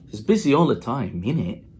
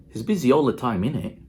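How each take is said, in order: No difference in how they are said.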